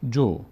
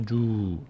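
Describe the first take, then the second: First: The vowel is kept short. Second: The vowel is drawn out long. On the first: The speaker calls it right. "فقط یک حرکت کوتاهه" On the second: The speaker calls it wrong. "زیادم کش ندید، نشه جو"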